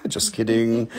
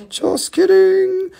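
First: Said in the usual way. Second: Squeaky mock. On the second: Second take, high and slow.

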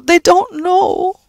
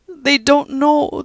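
First: Even higher, louder, very slow brogue; sighing Irish echo. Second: High, very slow brogue; slow Irish comfort. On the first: Judy comforting Pat, repeating sadly. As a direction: repeat it, aching more. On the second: Judy comforting Pat about the young, slowly. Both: Acted.

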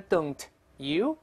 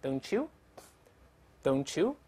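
First: Don't you as two words, t released before you; unlinked form. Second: Don't you slowly as "dohn-choo"; linked pronunciation. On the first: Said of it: "t碰到这个ye变成". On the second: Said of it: "慢慢来一遍". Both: Shown as a demonstration.

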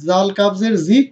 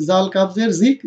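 Both takes have the same delivery.

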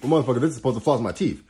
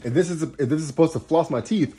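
First: Fast, emphatic "motherfucker" payoff; worked-up punchline. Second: Rising, eager lead-in; worked-up setup. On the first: Astrologer clinching her point, fast and emphatic. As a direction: slam the point home quickly. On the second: Astrologer building toward her punchline, worked up. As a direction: set up the punchline with heat. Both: Real, not acted. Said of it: "I'm getting a little worked up".

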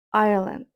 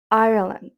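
The two takes are said the same way.

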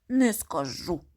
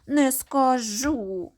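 First: Whispered refusal. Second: Slow, loud and sulky; capricious refusal. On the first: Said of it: "відповідає одне й те ж". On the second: Little girl refusing her mother, sulky and slow. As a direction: drag out a stubborn no. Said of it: "дівчинка починає вередувати". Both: Acted.

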